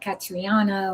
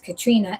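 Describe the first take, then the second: First: The name is said as Catriona. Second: The name is said as Katrina. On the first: This is a guess from the spelling. The speaker calls it wrong. "to me, it would be like Catriona or whatever" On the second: This is how the name is really said. The speaker calls it right. "but it's Katrina"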